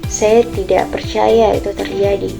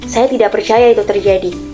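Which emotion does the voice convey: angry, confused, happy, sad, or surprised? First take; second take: sad; angry. First: The sentence is said in a sad tone. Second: The sentence is said in an angry tone. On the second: "dengan nada yang marah"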